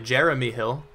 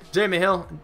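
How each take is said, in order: First: The name is pronounced carefully and clearly. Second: The name is pronounced in an odd, unclear way. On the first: The speaker calls it right. "Let me enunciate a little better" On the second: The speaker calls it wrong. "I kind of said his name really strangely"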